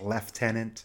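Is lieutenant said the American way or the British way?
British. It is said the British way, with an f sound.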